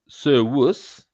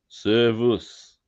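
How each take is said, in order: First: The middle consonant sounds like a w. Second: The middle consonant sounds like a v.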